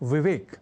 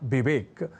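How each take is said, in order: First: The word begins with a v sound. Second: The word begins with a b sound. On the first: The speaker calls it right. "जैसे कहना और लिखना हो विवेक" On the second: The speaker calls it wrong. "तो लोग कह जाया करते हैं"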